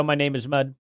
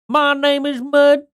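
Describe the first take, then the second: First: Said in the usual way. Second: High, slow, nasal-free cartoonish drawl. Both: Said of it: "[name]'s video".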